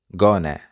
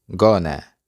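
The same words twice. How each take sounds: The two takes are said the same way.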